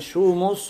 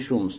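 First: A vowel is heard between the m and s. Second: No vowel is heard between the m and s. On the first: "с даммой" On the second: "с сукуном"

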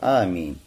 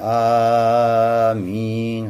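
First: The first vowel is held for two beats only. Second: The first vowel is drawn out very long. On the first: The speaker calls it right. "два хараката. Аминь. Это самая лучшая форма" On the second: The speaker calls it wrong. "Некоторые аминь, хорошо, и долго-долго говорят, вот а вначале тянут"

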